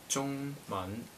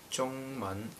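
No difference in how they are said.

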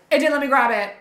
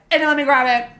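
Both takes have the same delivery.

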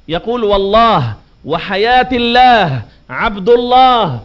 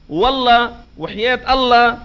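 First: والله, الله and عبد الله said slowly with a clear final ha; slow, deliberate والله وحياة الله عبد الله, every ha sounded; correct pronunciation. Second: والله and الله said as "walla", "lla", final ha dropped; mispronounced Allah. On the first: Preacher shows the correct form to the congregation, slowly. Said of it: "هذا اللفظ الصحيح". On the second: Preacher mimics everyday swearing, final ha swallowed. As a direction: careless والله وحياة الله without the ha. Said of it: "هذا تحريف". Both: Shown as a demonstration.

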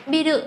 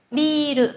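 First: Biru with a quick, short i; clipped "bi-ru", no long vowel. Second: Biru with the i drawn out; long vowel. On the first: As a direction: say biru without lengthening the first vowel. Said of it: "Đừng đọc biru sẽ thành một từ có ý nghĩa khác". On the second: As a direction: hold the first syllable, "bii-ru". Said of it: "Dấu gạch này là trường âm". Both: Shown as a demonstration.

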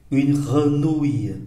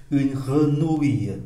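Both takes have the same delivery.

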